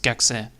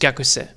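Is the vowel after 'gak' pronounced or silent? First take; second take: silent; pronounced. First: The u vowel after 'gak' is dropped. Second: The u vowel after 'gak' is sounded. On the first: The speaker calls it right. "you don't speak out the U" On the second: The speaker calls it wrong. "I forgot that part"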